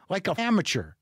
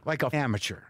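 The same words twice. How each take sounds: First: Disgusted with yourself, voice still up; self-scolding. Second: Lower, subdued repeat; deflated self-reproach. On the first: Man who left water in his bottle, self-scolding. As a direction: scold yourself for a beginner's mistake. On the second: Man who left water in his bottle, deflated self-reproach. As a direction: let the self-reproach sink in, resigned. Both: Real, not acted.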